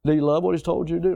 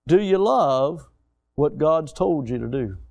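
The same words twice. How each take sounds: First: Fast, pressing restatement; quick repeated question. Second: Slow, weighty question to the crowd; slow pointed question. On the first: Preacher quickly repeating his challenge to the congregation. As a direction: rattle it off to press the point. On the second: Preacher slowly challenging his congregation with a question. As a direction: let each word sink in. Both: Shown as a demonstration. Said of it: "repeated rhetorical question".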